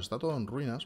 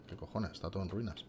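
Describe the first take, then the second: First: Said in the usual way. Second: Soft, low muttered swearing; cursing under breath. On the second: Real, not acted. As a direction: mutter it to yourself. Swears quietly at the ruins.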